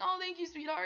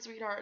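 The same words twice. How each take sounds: First: Gushy imitation. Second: Said in the usual way. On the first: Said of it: "And he's like". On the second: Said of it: "And he said".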